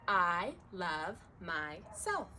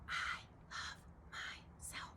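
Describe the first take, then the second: First: It is spoken in a normal voice. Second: It is spoken in a whisper.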